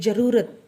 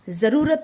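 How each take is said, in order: First: The word begins with a j sound. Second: The word begins with a z sound. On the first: The speaker calls it wrong. "हम ऐसे नहीं बोलते कि ज़रूरत, wrong है ये" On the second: The speaker calls it right. "ज़रूरत बोलते हैं हम"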